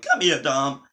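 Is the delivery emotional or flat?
emotional. It is said with strong emotion. The speaker calls it right. "and not like"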